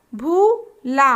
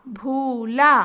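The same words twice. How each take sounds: First: भूला stretched very slowly; slow drawn-out word. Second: Said in the usual way. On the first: Shown as a demonstration. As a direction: draw out भूला syllable by syllable. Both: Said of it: "तीन वर्ण वाले शब्द".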